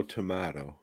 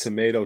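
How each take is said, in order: First: "tomato" said to-MAH-to; British-style pronunciation. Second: "Tomato" said to-MAY-to; American pronunciation. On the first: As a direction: say "tomato" with an open MAH in the middle. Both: Shown as a demonstration. Idiom contrasting two pronunciations.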